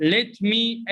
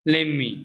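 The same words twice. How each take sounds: First: "let me" said as two words; careful "let me" before the reduction; full citation form. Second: "let me" run together as "lemme"; casual "lemme" for "let me"; reduced pronunciation. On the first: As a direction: pronounce "let me" word by word. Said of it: "let me is pronounced let me". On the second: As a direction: drop the t in "let me". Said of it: "is pronounced". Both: Shown as a demonstration.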